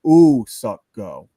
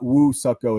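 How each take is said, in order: First: The first syllable begins with a plain vowel. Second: The first syllable begins with a W sound. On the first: The speaker calls it right. "It's Ooh Suck Go" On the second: The speaker calls it wrong. "official pronunciation is not Woo Suck Go"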